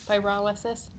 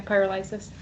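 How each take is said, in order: First: Pyrolysis stressed on the second syllable, RAH; pyrolysis as pie-RAH-luh-sis. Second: Pyrolysis with a LIE in the third syllable; pyrolysis as peer-o-LIE-sis. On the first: Committee member showing own way, pyrolysis as pie-RAH-luh-sis. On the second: Committee member echoing a colleague's word, pyrolysis as peer-uh-LIE-sis. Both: Shown as a demonstration. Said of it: "That's how I say it".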